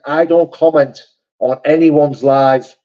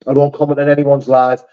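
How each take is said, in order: First: Slow, each word set down firmly; slow emphatic denial. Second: Said in the usual way. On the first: Real, not acted. To chat denying he commented, slowly and firmly. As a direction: spell it out so chat believes him.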